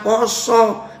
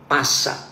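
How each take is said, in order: First: The word is pronounced with 'o' vowels. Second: The word is pronounced with 'a' vowels. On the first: It is read the Javanese way. The speaker calls it right. "Pasah dibaca poso harusnya" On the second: It is read the way it is spelled. The speaker calls it wrong. "Tulisannya P A S A"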